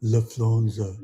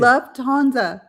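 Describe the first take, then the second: First: Lufthansa as "liff-LAWN-za"; garbled pronunciation. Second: Lufthansa slowly as "LUV-TAHN-za", higher; corrective pronunciation. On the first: Real, not acted. Learner trying after being corrected, garbled Lufthansa. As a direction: swap the T of Lufthansa for an L. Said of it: "Where's the F?". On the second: Shown as a demonstration. Coach correcting the learner, slow emphatic Lufthansa. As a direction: sound out Lufthansa slowly with a clear T. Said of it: "Say Luft".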